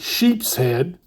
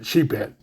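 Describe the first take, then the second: First: An s sound links sheep and head. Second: Sheep runs straight into head without an s. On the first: This is the proper name of the fish. "They're really sheep's head" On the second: This is how the speaker grew up saying it. "That's just the way I say it"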